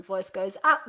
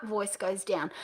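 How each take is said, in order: First: UP lifted at the end; voice going up. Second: DOWN falling low and soft; voice going down. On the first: Coach drills the rule once more, rising on up. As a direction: tip the pitch up on up. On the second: Coach drills the rule once more, falling on down. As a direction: let down drop away. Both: Shown as a demonstration.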